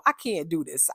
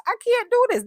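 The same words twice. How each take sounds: First: Said in the usual way. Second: Very high, loud acted protest; mock exasperated outburst. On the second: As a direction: blow up like someone fed up. Repeats it as dramatic complaint.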